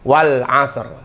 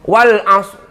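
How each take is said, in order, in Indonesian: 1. Bunyi r di akhir jelas dibunyikan. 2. Bunyi r di akhir dihilangkan.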